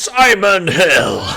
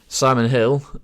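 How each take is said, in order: First: It is said in the X Factor man's voice. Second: It is said in his normal speaking voice.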